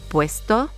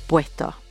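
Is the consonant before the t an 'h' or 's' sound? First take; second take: s; h. First: A clear s sound comes before the t. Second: An h sound comes before the t. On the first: "the typical S sound" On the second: "you'll hear an H sound rather than the typical S sound"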